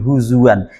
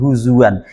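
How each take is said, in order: First: A w sound is heard in the middle. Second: A w sound is heard in the middle.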